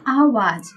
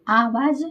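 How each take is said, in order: First: आवाज़ begun with short "a", as "avaaj"; wrong short A. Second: आवाज़ begun with long open "aa"; correct long AA. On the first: Teacher reading out the faulty word, आवाज़ with short first vowel. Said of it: "अशुद्ध है". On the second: Teacher giving the correct word, आवाज़ with long first vowel. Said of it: "आवाज़ शुद्ध है". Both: Shown as a demonstration.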